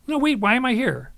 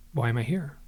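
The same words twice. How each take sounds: First: Raised, higher retold protest; insistent questioning. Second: Said in the usual way. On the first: Narrator retelling his challenge to the beings, insistent. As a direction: push the question harder, louder and higher.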